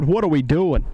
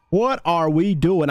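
First: Said in the usual way. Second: "What are we doing" drawn out word by word; slow, separated stress on every word of "What are we doing"; slow emphatic repeat. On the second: Real, not acted.

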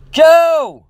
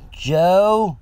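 First: High, loud alarmed scream of a name. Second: Higher, questioning call into a house; tentative call. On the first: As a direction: scream out for him urgently. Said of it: "I screamed". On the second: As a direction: call out hoping someone answers. Calling hopefully into silent house. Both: A narrator's reading.

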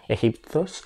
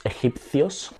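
First: Egipcios said as "exiptos", dropping the "ci" sound; quick slip on egipcios, said "exiptos"; first try at egipcios. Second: Egipcios said fully as "exipθjos" with a lisped "ci"; fixing the word: egipcios with a clear "θjo"; corrected egipcios. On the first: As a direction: egipcios slurred as "exiptos", rising. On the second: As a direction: egipcios carefully, "e-xip-θjos", rising. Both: Shown as a demonstration.

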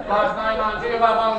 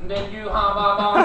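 First: Mock Cantonese accent. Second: Stephen Hawking impression. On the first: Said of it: "sounded like he was Cantonese". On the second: Mocking the bus passenger as a robotic voice. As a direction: drone each word like a speech computer. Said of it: "The guy sounded like Steve Hawking".

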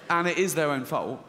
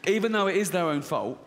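First: "is" leaned on in "and it is their own fault"; stress on is. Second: Said in the usual way. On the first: Real, not acted. Comedian insisting to the crowd, leaning on "is". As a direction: hit "is" to insist.

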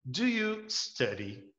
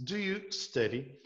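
First: "Do you study?" spoken very slowly with a rise; teacher spelling out "Do you study?" word by word; slow classroom demo of a question; slow English model. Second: "Do you study?" slowly, weight on "you"; teacher repeating the question slowly; slow English model. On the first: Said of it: "uma frase muito besta aqui". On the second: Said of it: "Quando você pergunta assim". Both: Shown as a demonstration.

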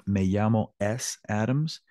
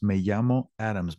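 First: "Me llamo S Adams" with a stray letter S before Adams; student error example. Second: "me llamo Adams" with no S before Adams; corrected example. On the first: Teacher showing students their common name error, "Me llamo S Adams" with an extra S. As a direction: say a separate "ess" between "llamo" and "Adams". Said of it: "committing the same error with saying your name". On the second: Teacher correcting the students' error, "me llamo Adams" without the S. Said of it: "You don't need to put the S in there". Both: Shown as a demonstration.

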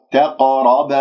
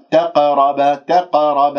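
First: تقرب with a full, dark bouncing q; heavy qaf. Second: تقرب with a thin, light bouncing q; wrongly light qaf. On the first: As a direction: give the ق of تقرب weight and a small echo. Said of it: "هكذا تعطيها تفخيم مرتبة رابعة". (تفخيم القاف المقلقلة في تقرب) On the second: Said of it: "ما تجيب لي القلقلة بقاف، آه، مرققة". (قلقلة بقاف مرققة خطأً في تقرب) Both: Shown as a demonstration.

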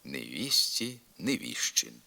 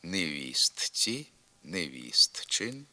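First: Невістці as невісьці, невіщин with щ; simplified consonants. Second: Slow невістці, невістчин with a separate т; spelled-out pronunciation. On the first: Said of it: "у вимові". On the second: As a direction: sound the written т in невістці and невістчин. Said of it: "на письмі". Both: Shown as a demonstration.

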